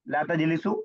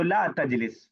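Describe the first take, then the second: First: The verb ends with a short u vowel. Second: The verb ends on a consonant, no final vowel. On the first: "साकिन की जगह पेश लगा दूं" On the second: "ला इसमें साकिन कर दिया"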